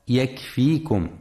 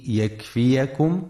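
First: يكفيكم with silent ya, yakfikum; the mistaken يكفيكم, ya run together, yakfikum; wrong reading. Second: يكفيكم with fatha on the ya, yakfiyakum; correct reading. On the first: Teacher warning listeners of the wrong reading, يكفيكم as yakfikum. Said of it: "فلا يقرأ يكفيكم". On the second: Teacher showing listeners the right reading, يكفيكم as yakfiyakum. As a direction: say يكفيكم with an a vowel after the ya. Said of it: "لفتح الياء وعدم سكونها". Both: Shown as a demonstration.

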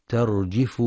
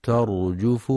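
First: ترجف with kasra on the jim, tarjifu; ترجف بكسر الجيم خطأ; wrong tarjifu. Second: ترجف with damma on the jim, tarjufu; ترجف بضم الجيم; correct tarjufu. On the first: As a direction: say ترجف with an i after j, the mistake. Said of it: "ترجف بكسر الجيم". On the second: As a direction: say ترجف with a rounded u after j. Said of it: "ينتبه القارئ في كلمة ترجف لضم الجيم". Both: Shown as a demonstration.

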